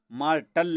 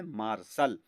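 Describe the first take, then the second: First: मार्टल with a hard T, ending "-tal"; mispronounced ending. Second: मार्शल ending in a plain "-sal"; correct pronunciation. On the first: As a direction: say the wrong मार्टल, "maar-tal". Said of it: "मार्टल नहीं पढ़ना है". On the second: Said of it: "इसको पढ़ना है मार्शल". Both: Shown as a demonstration.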